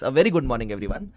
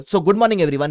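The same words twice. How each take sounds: First: Slow, drawn-out greeting with "very" stressed and a rise at the end; bigger good morning. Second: Said in the usual way. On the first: Shown as a demonstration. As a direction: lean on "very" and stretch the whole greeting out slowly. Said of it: "Yes, yes". ("very" पर ज़ोर देकर, धीमे और खींचकर बोलो)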